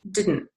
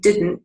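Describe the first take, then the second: First: The T sound is dropped. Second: The T sound is clearly pronounced. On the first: "drops some of the T sounds" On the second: "instead of saying didn't"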